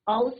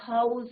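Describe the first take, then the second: First: The word begins without an h sound. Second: The word begins with an h sound. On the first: The speaker calls it wrong. "हाउस नहीं होता" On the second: The speaker calls it right. "यहाँ पे एच is not silent"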